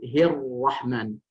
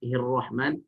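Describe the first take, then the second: First: The r sound is held long and doubled. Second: The r sound is short and single. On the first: The speaker calls it right. "di situ ada tasydid" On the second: The speaker calls it wrong. "Tidak boleh kita baca"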